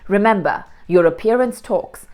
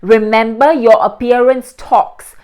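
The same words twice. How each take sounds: First: The words are spoken with normal, natural articulation. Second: The words are spoken with exaggerated, forceful articulation. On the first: "this is how you would read finally" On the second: "you start with complete exaggeration"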